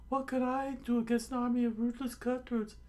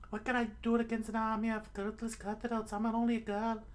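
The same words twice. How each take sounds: First: Very high, strong falsetto protest; high cartoon coward; cowardly protest. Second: Very high falsetto, less forceful; high put-on damsel voice; helpless girl act. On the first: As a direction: squeal the excuse. First take of repeated excuse. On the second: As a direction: plead helplessness in a thin girly squeak. Excuse repeated as the girl.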